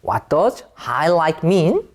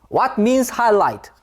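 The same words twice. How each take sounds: First: Slow, careful model of "What does highlight mean?"; correct question form. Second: Slow demo of the wrong "What means highlight?"; wrong question form. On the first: Teacher modelling the correct question for students, slow and careful. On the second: Teacher showing students the wrong form, slow and deliberate. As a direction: present "What means highlight?" slowly as the mistake. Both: Shown as a demonstration. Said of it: "이렇게 쓰면 안 돼요".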